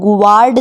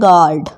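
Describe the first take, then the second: First: A w sound follows the g. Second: No w sound follows the g. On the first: The speaker calls it wrong. "यहाँ पर गुवार्ड नहीं पढ़ना है" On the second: The speaker calls it right. "ये है आपका गार्ड"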